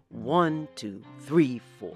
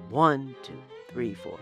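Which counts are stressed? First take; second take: one, three; one, three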